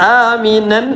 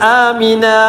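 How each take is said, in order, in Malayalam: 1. വാക്ക് അവസാനം ചേർത്ത 'an' ശബ്ദത്തോടെ അവസാനിക്കുന്നു. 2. വാക്ക് തുറന്ന 'a' സ്വരത്തോടെ അവസാനിക്കുന്നു. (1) "ആമിനൻ എന്നല്ല"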